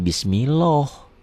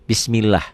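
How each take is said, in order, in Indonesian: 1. Huruf l pada Allah itu tebal dan berat. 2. Huruf l pada Allah itu tipis dan ringan.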